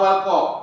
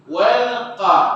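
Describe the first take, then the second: First: The 'wal' is said heavily and thick. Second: The 'wal' is said lightly, not thick. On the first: The speaker calls it wrong. "jangan walqa" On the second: The speaker calls it right. "Wal tak boleh dia tebal sangat"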